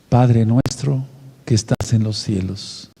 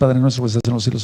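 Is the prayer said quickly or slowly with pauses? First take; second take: slowly; quickly. First: It is said slowly with pauses. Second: It is said quickly without pauses. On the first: The prayer is recited with awareness. The speaker calls it right. "lo correcto es hacerlo pausado" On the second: The prayer is recited without awareness. The speaker calls it wrong. "eso no sirve para nada"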